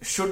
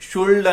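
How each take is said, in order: First: The word is said with no L sound. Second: The word is said with an L sound. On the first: The speaker calls it right. "షుడ్ అంటాం" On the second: The speaker calls it wrong. "కానీ షుల్డ్ అన్నము"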